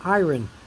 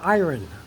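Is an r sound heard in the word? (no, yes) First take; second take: yes; yes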